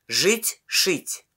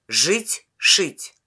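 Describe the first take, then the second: The two takes are said the same way.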